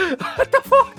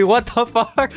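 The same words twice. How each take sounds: First: High, slow, cracking with laughter; laughing disbelief. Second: Higher, incredulous question; baffled disbelief. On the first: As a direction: laugh it out, stunned. Repeats, laughing. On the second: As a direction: ask it in shocked disbelief. Reacting to "aggressive hospitality. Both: Real, not acted.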